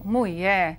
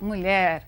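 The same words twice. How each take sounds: First: The word is said with a regional rural pronunciation. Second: The word is said with the standard pronunciation. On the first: "Dizer, por exemplo" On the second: "ao invés de falar"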